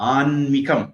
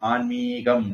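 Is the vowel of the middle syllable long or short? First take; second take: short; long. First: The middle syllable has a short vowel. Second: The middle syllable has a long vowel. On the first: The speaker calls it right. "மீ குரில்" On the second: The speaker calls it wrong. "நிறைய பேர் அதை நீட்டி எழுதி பழகிட்டாங்க"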